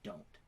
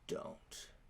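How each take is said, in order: First: It is said in a plain, flat way. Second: It is said in a dominating, seductive way.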